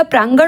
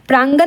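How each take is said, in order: First: प्रांगण ending in retroflex ण; correct प्रांगण. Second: प्रांगण ending in plain dental n; wrong प्रांगण. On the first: Teacher gives the correct word, प्रांगण with retroflex n. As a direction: curl the tongue to end प्रांगण. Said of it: "होता है". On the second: Teacher shows the misspelling, प्रांगण with plain n. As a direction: say प्रांगण with a final न. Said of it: "नहीं होता". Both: Shown as a demonstration.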